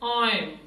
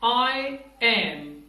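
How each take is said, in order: First: The two words are merged into one syllable. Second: Both words are said in full.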